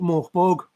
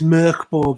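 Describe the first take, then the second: First: The first vowel sounds like 'or'. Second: The first vowel sounds like 'er'. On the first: The speaker calls it wrong. "people call it Morkborg" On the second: The speaker calls it right. "It's pronounced er rather than or"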